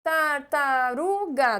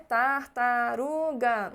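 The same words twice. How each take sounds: First: Tartaruga said slowly, syllable by syllable; slow tar-ta-ru-ga in beats; syllables spelled out. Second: Tartaruga said slowly, each syllable even; syllables spelled out. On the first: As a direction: tap out each syllable of tartaruga. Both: Shown as a demonstration. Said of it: "pensar numa palavra que tenha quatro sílabas".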